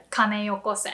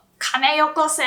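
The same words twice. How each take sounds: First: Said in the usual way. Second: Raised-pitch robber ordering a handover; forceful mock hold-up; robber's demand. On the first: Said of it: "bank robber would say". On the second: Shown as a demonstration. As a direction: demand cash like a bank robber. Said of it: "you can sound like a robber".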